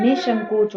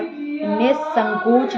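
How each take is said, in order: First: Said in the usual way. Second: Slow, loud निसंकोच with s; mistaken sibilant. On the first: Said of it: "होता है". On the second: Shown as a demonstration. Teacher rejecting a misspelling, mistaken s sound. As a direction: hit the स in निसंकोच. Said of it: "नहीं".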